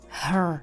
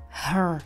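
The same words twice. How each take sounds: First: Said with a slight R sound at the end. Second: Said with a slight R sound at the end.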